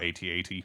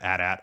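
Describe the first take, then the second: First: It is spelled out letter by letter. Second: It is said as two whole words. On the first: The speaker calls it right. "I just spell it out" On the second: The speaker calls it wrong. "I don't I don't pronounce it at at"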